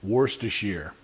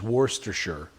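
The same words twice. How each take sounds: Both takes have the same delivery.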